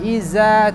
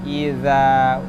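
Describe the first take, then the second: First: The consonant is a z sound, tongue behind teeth. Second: The consonant is a th sound, tongue tip at teeth. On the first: The speaker calls it wrong. "bukan iza" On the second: The speaker calls it right. "tapi idza. Ujung lidah, ujung gigi sirih atas"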